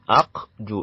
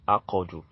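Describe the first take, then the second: First: The q is clipped with no vowel after it. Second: The q is followed by a short a sound. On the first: This is the ordinary reading. "It's supposed to be uh, aqdu like this" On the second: This is the Quran recitation reading. "in Quran recitation, it will be pronounced as aqadu"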